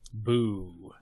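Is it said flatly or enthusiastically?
flatly. It is said flatly, without enthusiasm.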